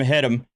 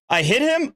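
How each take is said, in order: First: It is said as a statement, falling. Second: It is said as a question, rising. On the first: She is admitting she did it. "as a definitive statement of fact" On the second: She is asking whether she did it. "saying it as a form of a question?"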